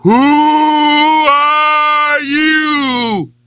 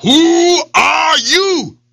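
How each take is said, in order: First: Drawn-out distant echo of the shout. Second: Growled. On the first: Echo answers the lion from the well, hollow. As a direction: let it ring back like a well echo. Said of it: "his echo came back up". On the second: Lion shouts down into the well, growling. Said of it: "he growled down". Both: Acted.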